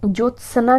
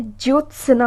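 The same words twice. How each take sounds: First: ज्योत्सना with a full 'sa' before na; wrong pronunciation. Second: ज्योत्सना with 'ts' running into 'na'; correct pronunciation. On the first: Teacher showing the mistake, 'jyot-sa-na' for ज्योत्सना. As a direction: separate 'sa' and 'na' in ज्योत्सना. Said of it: "ज्योत्सना नहीं होता है". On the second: Teacher giving the right form, 'jyots-na' for ज्योत्सना. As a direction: join s to n in ज्योत्सना. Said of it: "ज्योत्सना होता है". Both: Shown as a demonstration.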